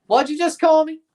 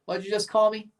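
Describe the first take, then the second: First: Mock outrage. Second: Said in the usual way. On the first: Second take, outraged.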